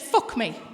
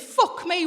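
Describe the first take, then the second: First: It sounds like a suggestive, flirtatious invitation. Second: It sounds like a shocked, sympathetic exclamation. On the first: The speaker is propositioning her for sex. "Same words, very different intonation" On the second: The listener is amazed by what she went through. "Same words, very different intonation"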